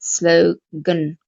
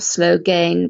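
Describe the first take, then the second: First: The second syllable has a weak schwa. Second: The second syllable has a full vowel. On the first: The speaker calls it right. "but slogan, gun" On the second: The speaker calls it wrong. "not slogan"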